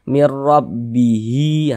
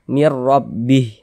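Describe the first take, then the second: First: It ends with a lengthened final i vowel. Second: It ends on the h sound, without a vowel. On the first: The reader continues into the next word. "kita wasolkan mir rabbihi, ya, baru berfungsi tanda panjangnya" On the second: The reader stops at this word. "kita berhenti tepat di huruf H, kita baca mir rabbih"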